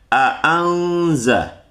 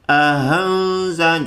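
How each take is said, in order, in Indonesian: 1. Kedua hamzah dibaca jelas dan penuh. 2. Hamzah kedua dilunakkan seperti h yang ringan. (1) "dengan jahar kedua-dua huruf hamzah tersebut" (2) "hamzah yang kedua itu dibacanya agak ringan, seperti ada lafaz ha, tapi ha ringan"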